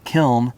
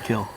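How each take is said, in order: First: The word ends with an audible n sound. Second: The word ends in l with no n sound. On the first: The word was read from its spelling. The speaker calls it wrong. "when you hear people say the word kiln" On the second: This is the original pronunciation. The speaker calls it right. "they mispronounced the word kill"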